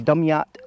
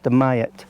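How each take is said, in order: First: The name is said the way outsiders often say it. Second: The name is said the way locals say it. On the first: The speaker calls it wrong. "some people might say Dumyat" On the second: The speaker calls it right. "but it's pronounced Dumyat"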